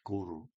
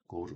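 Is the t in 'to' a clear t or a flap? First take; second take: flap; clear t. First: The t in 'to' is a quick r-like flap. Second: The t in 'to' is a clear t.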